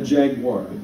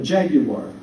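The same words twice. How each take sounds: First: The word is said with an American pronunciation. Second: The word is said with a British pronunciation. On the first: "We would call it a Jaguar" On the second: "he would call it a Jaguar"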